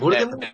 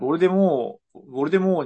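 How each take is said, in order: First: The name ends with an audible T sound. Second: The name ends without a final T sound.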